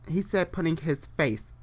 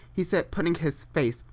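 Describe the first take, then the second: No difference in how they are said.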